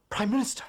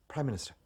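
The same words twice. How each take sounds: First: Louder, higher second call; urgent call. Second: Said in the usual way. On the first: Acted. Secretary calling the Prime Minister again, loud and urgent. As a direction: call him sharply over the room.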